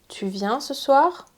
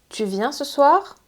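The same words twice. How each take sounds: No difference in how they are said.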